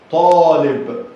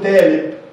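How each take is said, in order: First: The first consonant is a heavy emphatic t. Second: The first consonant is a light plain t. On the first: The speaker calls it right. "طاء طاء طالب" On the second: The speaker calls it wrong. "ما ينفعش اقول تالب"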